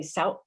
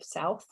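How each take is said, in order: First: Sout cut off by a glottal stop instead of th. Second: Said in the usual way. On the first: Shown as a demonstration. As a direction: end sout on a caught breath, no th. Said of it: "another example of the glottal stop". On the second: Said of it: "instead of south".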